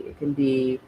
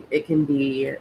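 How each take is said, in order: Both takes have the same delivery.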